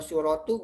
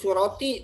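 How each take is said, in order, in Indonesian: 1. Kata ini berakhir dengan vokal u. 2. Kata ini berakhir dengan vokal i. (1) "bukan surotu" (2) "Halus suroti"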